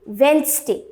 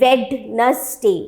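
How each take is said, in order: First: The middle 'd' sound is left out. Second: The middle 'd' sound is pronounced. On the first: The speaker calls it right. "ये डी हमने यहां से काट दिया and the correct pronunciation becomes वेंसडे" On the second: The speaker calls it wrong. "not Wednesday"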